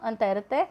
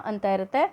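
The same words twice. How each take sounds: The two takes are said the same way.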